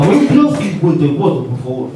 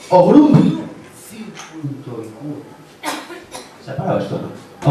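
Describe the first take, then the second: First: Newsman's voice, emphatic address then dropping; Pedro Piqueras. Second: Pedro Piqueras. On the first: Passenger repeats the address to the driver, emphatic Piqueras impression. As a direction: call out the destination like a dramatic anchor. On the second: Passenger gives the taxi driver an address, Piqueras impression dying away. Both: Acted. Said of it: "Me para el taxi Pedro Piqueras".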